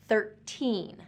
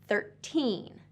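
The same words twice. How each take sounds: No difference in how they are said.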